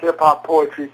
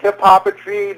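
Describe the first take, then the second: First: Hip-hop and poetry are said as separate words. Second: Hip-hop and poetry merge into one blended word. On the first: This is the form the speaker personally prefers. "but I tend to prefer jazz, funk, hip-hop, poetry" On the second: This is the form used by the term's creator. "That's the pronunciation who coined the term"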